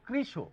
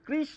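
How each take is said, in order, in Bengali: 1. শব্দটি ও-এর মতো একটি স্বরধ্বনি দিয়ে শেষ হয়। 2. শব্দটি খালি ব্যঞ্জনে শেষ হয়। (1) "শেষে ও এর মতো খানিকটা উচ্চারণ করতে হয়" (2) "এটি কিন্তু কৃষ নয়"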